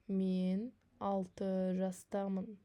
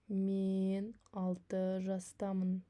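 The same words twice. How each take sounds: Both takes have the same delivery.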